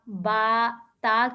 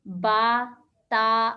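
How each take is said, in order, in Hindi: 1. स्वर खुला 'a' ध्वनि है। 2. स्वर खुला 'a' ध्वनि है।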